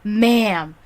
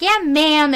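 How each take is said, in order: First: Affronted echo. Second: Higher, louder quoted reply; young host. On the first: Applicant echoing the young host's word, mildly affronted. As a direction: repeat it back, mildly affronted. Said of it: "and I'm like". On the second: Young host answering a job applicant, lightly imitated. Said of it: "like, a nineteen-year-old boy". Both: Retold or imitated.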